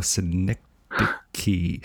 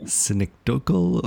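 First: Synecdoche said si-NEK-doh-kee, slowly; drawn-out pronunciation. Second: Synecdochal said sin-ek-DOKE-ul; mock mispronunciation. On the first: Host trying out ways to say the word, drawn-out pronunciation. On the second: Host trying out ways to say the word, mock mispronunciation. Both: Shown as a demonstration. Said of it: "how to say this word properly".

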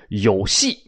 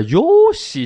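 First: Said in the usual way. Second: Very high, exaggerated Japanese-sounding exclamation; mock Japanese. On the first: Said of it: "不是日本话". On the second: Listener questioning the odd phrase, in high mock Japanese. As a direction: leap up in pitch like pretend Japanese. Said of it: "这不是日本话吗".

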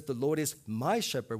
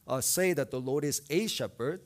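First: "my" pressed firmly in "The Lord is my shepherd"; stress on MY. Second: The word "a" marked as the wrong word in "the Lord is a shepherd"; stress on a. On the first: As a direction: land the weight on "my". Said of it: "He says". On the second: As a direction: lean on "a", not "my". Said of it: "He doesn't say". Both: Shown as a demonstration.

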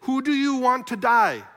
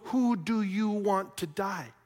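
First: Loud, high demand to a crowd; ringing public question; Pilate's challenge. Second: Slow, weighted question; measured, probing delivery at normal volume; pointed question. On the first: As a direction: throw the question out forcefully, pitch raised. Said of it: "Pilate says". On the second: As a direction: space the words out deliberately. Preacher puts Pilate's question back pointedly. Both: Retold or imitated.

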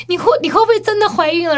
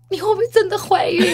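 First: High, stammered tearful question; mimicked tearful father. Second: High-pitched, about-to-cry question; mimicked tearful father. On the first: Retelling dad's red-light question, mock tearful stammer. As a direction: stumble into it, imitating weepy dad. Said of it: "他就". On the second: Dad at the red light asks his daughter, mock tearful. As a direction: ask as if tears are coming. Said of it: "然后他就哭".

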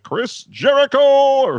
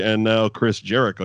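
First: Ring announcer call. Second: Said in the usual way. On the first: Shown as a demonstration. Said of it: "You gotta be like". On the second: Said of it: "you can't just say".

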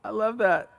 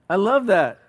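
First: Said in the usual way. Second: "love" said louder with a falling tune; stress on love. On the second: Shown as a demonstration. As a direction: lean hard on "love".

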